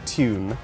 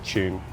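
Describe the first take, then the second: First: It is said in a posh British accent. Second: It is said in an ordinary British accent.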